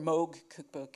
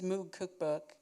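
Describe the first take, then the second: First: Moog is said in the polite, careful pronunciation. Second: Moog is said in the casual, everyday pronunciation.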